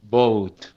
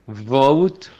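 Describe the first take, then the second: First: Vote said as boat with a b; vote with a Spanish b; wrong b sound. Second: Vote with a buzzing v; Vote with teeth on lip; right v; correct v. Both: Shown as a demonstration. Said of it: "Porque si no".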